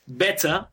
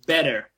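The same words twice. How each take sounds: First: British "better" with the final R dropped; British accent. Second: American "better", tapped T and sounded R; American accent. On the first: Teacher contrasting British with American English, British accent. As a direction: end "Better" on an open vowel, British style. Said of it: "I would say that with a British accent". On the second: Teacher contrasting American with British English, American accent. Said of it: "in American English". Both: Shown as a demonstration.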